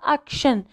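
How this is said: It is pronounced the English way. "في لونغلي كنقراوها اكشن"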